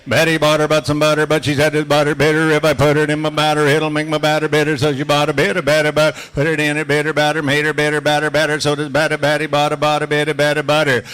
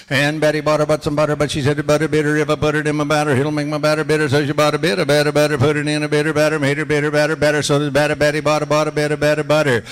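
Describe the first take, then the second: First: Loud, steady chant of the tongue twister, every word crisp; tongue twister drill. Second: Loud and fast, rattling the twister off; fast tongue twister. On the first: Auctioneer drilling his class in a loud tongue twister chant. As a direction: lead the class through the drill at full voice. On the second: Auctioneer repeating the tongue twister faster with his class. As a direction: speed through it at full voice. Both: Shown as a demonstration. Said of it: "we'll do a couple Betty Botters".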